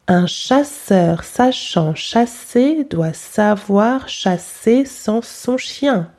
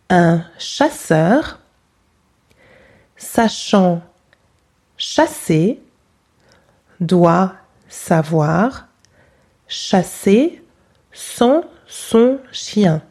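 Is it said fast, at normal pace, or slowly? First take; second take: fast; slowly. First: It is said fast. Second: It is said slowly.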